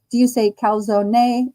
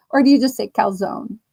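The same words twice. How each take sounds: First: Calzone said as cal-ZO-nay, ending in an ay sound; calzone with a final ay. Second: Said in the usual way. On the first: Shown as a demonstration. Streamer asks chat how they say it, with a final ay. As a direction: give calzone an extra ay at the end. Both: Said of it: "If you say A, put A Y".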